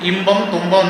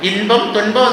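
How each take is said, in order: First: The middle cluster is an m followed by b. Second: The middle cluster is an n followed by p. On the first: This is how Malayalis say it. "ഇമ്പം തുമ്പം എന്ന് മലയാളികൾ പറയുന്നു" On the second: This is the original, non-Malayalam form. "ഇൻപം തുൻപം എന്ന് പറയുന്നതിന്"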